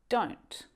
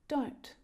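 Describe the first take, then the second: First: It is said as one short contracted syllable. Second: The same.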